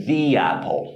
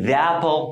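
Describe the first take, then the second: First: "the apple" said as "thee apple", the vowel of "the" long like "ee"; correct "thee". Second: "the apple" said as "thuh apple", short neutral vowel in "the"; the wrong way, "the" with a short "uh". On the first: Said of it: "پس ما باید بگیم". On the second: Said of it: "غلط". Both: Shown as a demonstration.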